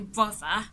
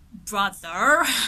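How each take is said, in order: First: The R at the end is silent. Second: The R at the end is pronounced. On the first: "someone from the U K would just say" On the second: "someone from the U S will say"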